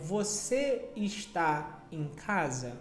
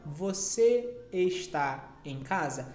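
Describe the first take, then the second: First: The verb is said in full as está. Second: The same.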